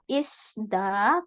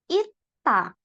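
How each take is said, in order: First: The word is said with an S sound. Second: The word is said without an S sound. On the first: The speaker calls it wrong. "ini bukan dibaca isda" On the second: The speaker calls it right. "tapi ita"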